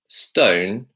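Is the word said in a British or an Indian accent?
British. It is said with a British accent. The speaker calls it right. "stone in the British accent"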